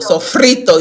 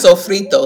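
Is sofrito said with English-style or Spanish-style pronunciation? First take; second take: Spanish; English. First: The word is said with Spanish-style sounds and flair. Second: The word is said with plain English-style sounds. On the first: The speaker calls it right. "You gotta say it right" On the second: The speaker calls it wrong. "it's not sofrito"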